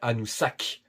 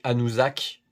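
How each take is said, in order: First: The middle consonant is an s sound. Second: The middle consonant is a z sound. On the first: The speaker calls it right. "j'ai dit bien Anoussack. J'ai bien prononcé ton prénom" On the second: The speaker calls it wrong. "j'ai pas dit Anouzak"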